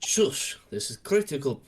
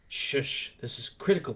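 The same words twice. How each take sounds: First: It is spoken in a Russian-sounding accent. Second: It is spoken in a British accent. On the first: The speaker calls it wrong. "Sorry, I'm not Russian" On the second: The speaker calls it right. "I'm supposed to be British"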